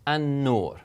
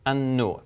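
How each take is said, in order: First: The L is absorbed into a doubled n. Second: The same.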